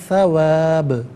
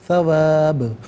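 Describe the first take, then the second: The two takes are said the same way.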